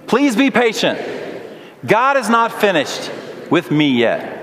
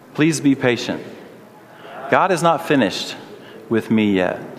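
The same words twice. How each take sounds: First: It is said louder. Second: It is said at normal volume.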